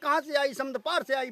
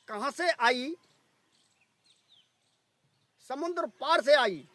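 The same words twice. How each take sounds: First: The line is spoken quickly. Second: The line is spoken slowly. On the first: "मंत्र तो आपने बहुत तेजी से बोला है" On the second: "बोल देता हूँ धीरे धीरे"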